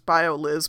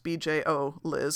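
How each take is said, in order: First: The first part is said as one word. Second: The first part is said as letters. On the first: The speaker calls it wrong. "I always think of this as Bio Liz, but it's not Bio Liz" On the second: The speaker calls it right. "It's BJO Liz"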